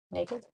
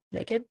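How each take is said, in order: First: "Naked?" asked softly to herself, a quiet rising question; muttered "Naked?" testing the word; softer wondering. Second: "Naked?" pitched up, teasing rising question to viewers; higher playful question. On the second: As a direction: toss out "Naked?" brighter and higher. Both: Shown as a demonstration. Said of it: "Naked balmy blue?".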